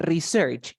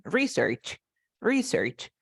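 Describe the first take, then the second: First: "research" stressed on the end, re-SEARCH; verb stress. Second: "research" stressed on the first syllable, RE-search; noun stress. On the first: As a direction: hit the second syllable of "research". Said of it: "As a verb". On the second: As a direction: hit the start of "research" as a noun. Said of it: "As a noun". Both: Shown as a demonstration.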